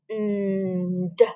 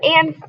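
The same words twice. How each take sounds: First: The word is slowly stretched out, sound by sound. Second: The word is said quickly in one short snap. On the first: The speaker calls it wrong. "Silly me, that's a snap word" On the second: The speaker calls it right. "that's the word and"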